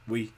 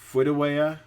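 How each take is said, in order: First: Only one short syllable is produced. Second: Many sounds are replaced and some dropped. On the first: "the severe is just" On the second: "A moderate disorder is"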